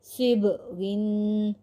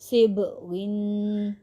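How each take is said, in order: Both takes have the same delivery.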